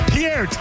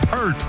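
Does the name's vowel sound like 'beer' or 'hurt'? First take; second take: beer; hurt. First: The vowel sounds like the one in beer. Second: The vowel sounds like the one in hurt. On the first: The speaker calls it right. "It's Peart" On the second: The speaker calls it wrong. "It's not Pert"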